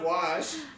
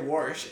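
First: The word is said with a plain accent. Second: The word is said with a regional accent. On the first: This is the usual way to say it. "instead of wash" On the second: This is how the grandmother says it. "she would just say wash"

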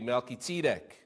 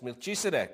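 First: The name is said with Hebrew pronunciation. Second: The name is said with English pronunciation. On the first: "In Hebrew, it would be Melchizedek" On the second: "and that's Melchizedek"

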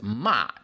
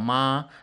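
First: The pitch falls sharply from high to low. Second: The pitch stays high and level. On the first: It means scolding someone. "whereas ma means like telling people off, scolding" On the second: It means mother. "The first tone ma is mother"

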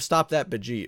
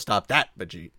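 First: The stress is on Bajeet. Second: The stress is on that.

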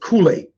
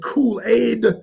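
First: The final D sound is left off. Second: The final D sound is pronounced.

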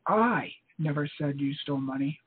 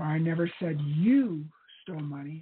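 First: The stress is on "I". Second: The stress is on "you".

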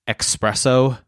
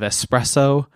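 First: The word begins with an 'ex' sound. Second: The word begins with an 'ess' sound. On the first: The speaker calls it wrong. "people who say espresso instead of" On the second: The speaker calls it right. "instead of espresso"

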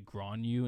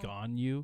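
First: The name is said with an added R sound. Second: The name is said without any R sound. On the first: The speaker calls it wrong. "I always add the R in there" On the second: The speaker calls it right. "There's no R"

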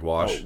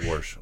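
First: No r sound comes before the sh. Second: An r sound is added before the sh. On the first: This is the usual way to say it. The speaker calls it right. "Like wash" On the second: This is how a former boss said it. The speaker calls it wrong. "I used to have a boss that said warsh"

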